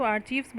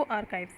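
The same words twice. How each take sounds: First: आर्चीव्स said with a ch sound, archeeves; the mispronunciation some people use, आर्चीव्स with ch and long ee; आर्चीव्स as arch-eeves; wrong pronunciation. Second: आर्काइव्स as ar-kaiv with a hard k; teacher models the right way, आर्काइव्स ar-kives; आर्काइव्स with k sound and long ai; correct pronunciation. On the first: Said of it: "वो wrong pronunciation होता है". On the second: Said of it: "ध्यान रखिएगा इसका जो pronunciation". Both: Shown as a demonstration.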